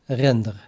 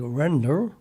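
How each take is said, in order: First: The word is said with a Dutch R. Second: The word is said with an English R. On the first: "in one hundred percent Dutch" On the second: "Just the R is a little bit different pronounced"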